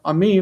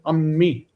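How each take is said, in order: First: The m sound is short and single. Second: The m sound is held long and doubled. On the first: The speaker calls it wrong. "not ami" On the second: The speaker calls it right. "but ammi"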